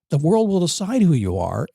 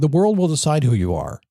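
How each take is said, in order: First: The phrase is spoken slowly. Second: The phrase is spoken quickly. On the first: The speaker calls it right. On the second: The speaker calls it wrong.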